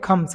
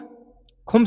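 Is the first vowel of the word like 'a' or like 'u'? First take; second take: a; u. First: The first vowel is an 'a' sound. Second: The first vowel is a 'u' sound. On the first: The speaker calls it right. "इसको कहते हैं खम्स" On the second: The speaker calls it wrong. "खुम्स नहीं दोस्तों"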